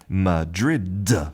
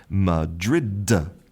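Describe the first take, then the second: First: The final D sound is clearly pronounced. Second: The same.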